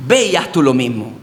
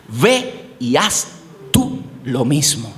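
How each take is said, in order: First: Said in the usual way. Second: Slow, low, weighty command; lowered voice, very slow, as Jesus giving the command; solemn voice of Jesus. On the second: A narrator's reading. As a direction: lay down each word slowly like a final word. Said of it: "Mira lo que dice Jesús".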